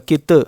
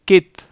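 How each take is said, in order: First: The final consonant is released with a bounce. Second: The final consonant stops cleanly without bouncing. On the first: The speaker calls it wrong. "अलग होगी तो कलकला होगा कित, और ये गलत है" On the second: The speaker calls it right. "नहीं अलग नहीं हो रही"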